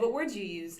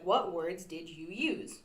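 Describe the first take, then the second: First: It is said fast with sounds dropped. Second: It is said slowly with every sound.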